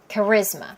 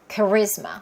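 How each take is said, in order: First: It is stressed on the second syllable. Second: The same.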